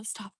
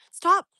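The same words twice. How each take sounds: First: Quiet stop. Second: Loud, high, sudden stop; sharp command. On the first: Streamer telling someone to stop, quietly. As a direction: say it softly, almost to yourself. First telling-off, under the breath. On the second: Streamer telling someone to stop, forcefully. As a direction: order them firmly to quit. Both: Real, not acted.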